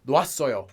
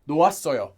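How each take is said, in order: The two takes are said the same way.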